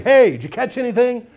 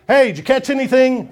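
First: A second loud, high call of the same question. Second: A bright call across the water, pitched up and louder. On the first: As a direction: call it out again across the water. Repeated taunting question. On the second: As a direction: shout it from the shore to the boat. Calling out to the fishermen. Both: Acted.

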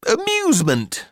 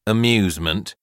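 First: High-pitched, coaxing AMUSEMENT; mother's airy, high suggestion; hopeful mother. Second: Put-on pompous boy's sober query; disdainful boy. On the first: Mother offers the word brightly. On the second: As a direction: echo "Amusement" stiffly as a dubious question. Humorless boy echoes the word. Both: A narrator's reading.

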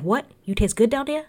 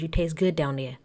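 First: High, incredulous mock Jersey accent; Frank. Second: Mock Jersey accent, matter-of-fact statement; Joe Gorga. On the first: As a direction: question it in disbelief, putting on Jersey. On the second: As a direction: report it plainly in a put-on Jersey accent. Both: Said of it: "don't mind my Jersey accent".

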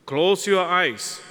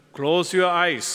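First: Slow down on "Close your eyes"; lingering, slowed repeat of "Close your eyes"; slow, soothing. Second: Said in the usual way. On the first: Shown as a demonstration.

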